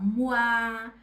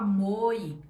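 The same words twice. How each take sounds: First: The vowels are said together, like 'wa'. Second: The vowels are said separately, like 'oy'. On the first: The speaker calls it right. "O com I vira uá" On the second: The speaker calls it wrong. "em vez de eu falar"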